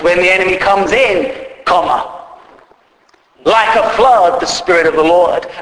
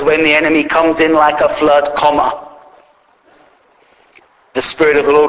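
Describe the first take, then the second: First: The pause comes after the word in. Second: The pause comes after the word flood. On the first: The Spirit of the Lord comes like a flood. The speaker calls it right. "we should read it like this. When the enemy comes in, comma" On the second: The enemy comes in like a flood. The speaker calls it wrong. "when the enemy comes in like a flood, comma"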